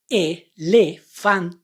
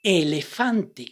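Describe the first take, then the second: First: "Elefante" drawn out very slowly, vowel by vowel; very slow reading. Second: "Elefante" slowly, every vowel clear; slow syllable reading. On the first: Teacher drawing out "Elefante" very slowly. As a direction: stretch "Elefante" syllable by syllable. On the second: Teacher reading "Elefante" slowly for students. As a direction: read "Elefante" slow and even. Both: Shown as a demonstration. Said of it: "Now let's read this word".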